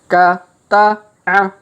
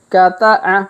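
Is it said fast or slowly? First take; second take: slowly; fast. First: The syllables are read slowly and separately. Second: The syllables are read quickly and run together. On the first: "Maka kita baca pelan-pelan" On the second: "Kalau dipercepat"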